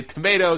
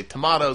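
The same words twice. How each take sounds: First: TOMATO with a long A, "tuh-MAY-toh". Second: TOMATO with a broad A, "tuh-MAH-toh". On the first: Host comparing ways people say it, TOMATO as "tomayto". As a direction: say TOMATO to rhyme with potato. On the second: Host comparing ways people say it, TOMATO as "tomahto". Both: Shown as a demonstration. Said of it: "some people say tomato".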